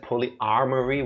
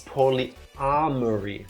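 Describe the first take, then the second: First: An R sound follows the A. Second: No R sound follows the A. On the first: It refers to multiple armories. The speaker calls it wrong. "I said polyarmory, which would imply multiple armories" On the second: It refers to multiple loves. The speaker calls it right. "Without the R after the A"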